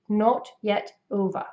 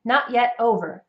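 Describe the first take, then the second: First: British imitation, crisp T's, closed rounded O; British accent. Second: Said in the usual way. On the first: Shown as a demonstration. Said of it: "for the British accent". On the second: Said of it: "in a North American English accent".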